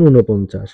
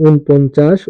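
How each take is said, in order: First: ঊনপঞ্চাশ as "u-no-ponchash"; spoken pronunciation. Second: ঊনপঞ্চাশ as written, "un-ponchash"; spelling reading. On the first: Teacher demonstrates pronunciation, ঊনপঞ্চাশ as "u-no-ponchash". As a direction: add an o after the n in ঊনপঞ্চাশ. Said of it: "উচ্চারণ". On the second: Teacher reads out a number's spelling, ঊনপঞ্চাশ as "un-ponchash". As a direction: say ঊনপঞ্চাশ with n straight into p. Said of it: "বানান". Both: Shown as a demonstration.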